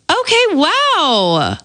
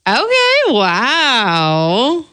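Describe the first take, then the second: First: It sounds supportive and encouraging. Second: It sounds sarcastic and mocking.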